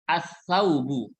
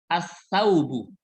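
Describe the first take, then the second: Both takes have the same delivery.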